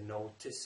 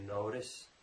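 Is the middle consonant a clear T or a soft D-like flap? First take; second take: clear T; D-like flap. First: The middle consonant is a clear, crisp T. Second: The middle consonant is a soft D-like flap. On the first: "I didn't say notice" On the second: "I said, did you notice?"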